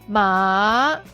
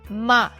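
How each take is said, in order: First: The pitch dips low, then rises high. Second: The pitch falls from high to low. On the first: It means horse. "The third tone, low to the bottom, then up to high" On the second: It means to scold. "The fourth tone, high to the bottom"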